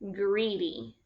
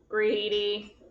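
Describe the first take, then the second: First: The word is said in a normal speaking voice. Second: The word is said in a flat mechanical voice. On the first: "can you say it in a first grade voice?" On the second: "how about in a robot voice?"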